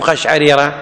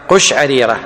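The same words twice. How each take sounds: First: The first vowel is a. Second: The first vowel is u. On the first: The speaker calls it wrong. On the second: The speaker calls it right.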